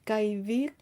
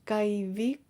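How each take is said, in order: No difference in how they are said.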